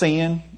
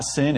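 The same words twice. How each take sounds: First: The word is said in a Southern Tennessee accent. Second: The word is said in a standard American accent. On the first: "it's sin" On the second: "Sin is not sin"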